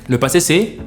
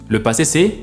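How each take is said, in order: No difference in how they are said.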